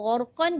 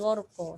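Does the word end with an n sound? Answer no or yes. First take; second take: yes; no. First: The word ends with an n sound. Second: The word ends on a vowel without n. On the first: The reading continues without stopping. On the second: The reader stops at this word. "jadi gharqa"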